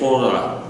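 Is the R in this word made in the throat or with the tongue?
throat. The R is a swallowed, throaty R. "they would say Torah"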